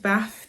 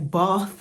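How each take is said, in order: First: Bath is said with a short northern vowel. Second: Bath is said with a long southern vowel.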